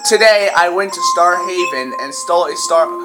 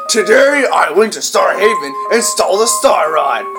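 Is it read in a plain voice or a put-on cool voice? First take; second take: plain; cool voice. First: It is read in a plain, ordinary voice. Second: It is read in a put-on cool voice.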